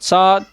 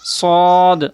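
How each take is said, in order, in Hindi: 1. यह हर्फ़ पतली, हल्की आवाज़ में पढ़ा जाता है। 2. यह हर्फ़ भारी, भरी हुई आवाज़ में पढ़ा जाता है। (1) "ऐसे नहीं पढ़ेंगे" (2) "इनको हमेशा पूर्व पढ़ेंगे"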